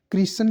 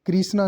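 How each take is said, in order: First: कृष्ण said as "krisan"; careful "KRI-san" for कृष्ण; correct ending. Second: कृष्णा said as "krisnaa"; wrong ending. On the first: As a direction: end कृष्ण on n, no long aa. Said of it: "कृष्ण लिखा जाएगा". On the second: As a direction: end कृष्णा on a long aa. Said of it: "कृष्णा नहीं". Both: Shown as a demonstration.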